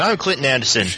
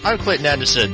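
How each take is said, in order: First: It is said without an Australian accent. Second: It is said with an Australian accent.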